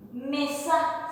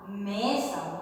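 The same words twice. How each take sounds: First: "Mesa" with the weight on the final A; accented final A. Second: Said in the usual way. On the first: Shown as a demonstration. Teacher modelling a Guaraní word, stress on the final A. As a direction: say "Mesa" stressing its last vowel. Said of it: "le doy un acento sobre la A".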